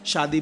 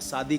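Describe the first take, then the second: First: The word begins with a 'sh' sound. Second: The word begins with an 's' sound. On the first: The speaker calls it right. "हमने कहा आपको शादी बोलना" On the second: The speaker calls it wrong. "आपने शादी करके बोल दिया"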